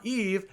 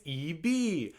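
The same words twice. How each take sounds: First: "Eve" with no vowel after the v; rejected one-syllable pronunciation of "Eve". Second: "E B" said slowly as two syllables, ee-vee; "E B" with a long ee ending each syllable. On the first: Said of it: "how to pronounce every K-pop member". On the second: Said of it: "this one said". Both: Shown as a demonstration.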